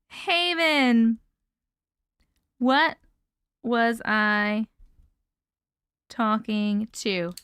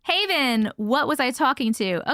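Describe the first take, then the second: First: Slow, broken word by word with long pauses; writing it down. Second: Said in the usual way. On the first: Real, not acted. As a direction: spell it out slowly as you write. Repeats it while writing it down.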